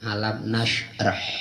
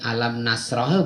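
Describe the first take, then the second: First: The consonant before -rah is a sh sound. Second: The consonant before -rah is an s sound. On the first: The speaker calls it right. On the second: The speaker calls it wrong.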